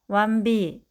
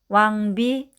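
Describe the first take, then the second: First: The first syllable's final consonant blends into the next. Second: The first syllable's final consonant is kept distinct. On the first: The speaker calls it wrong. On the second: The speaker calls it right.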